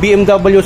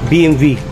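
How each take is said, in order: First: The letters are said the Filipino way. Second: The letters are said the German way. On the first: "yung B M W sa atin" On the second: "yung pronunciation sa German"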